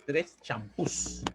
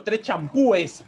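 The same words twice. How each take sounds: First: "champús" slow and soft, plain s after ú; correct plural champús. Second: "champúes" with stressed ú and an added es; incorrect plural champúes. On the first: Teacher correcting the shopping example, slow soft "champús" ending in s. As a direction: set "champús" down softly, no e before s. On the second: Teacher's faulty shopping example, "champúes" with a clear extra es. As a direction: sound out "champúes" clearly as cham-pú-es. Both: Shown as a demonstration. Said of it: "No, no es tres champúes".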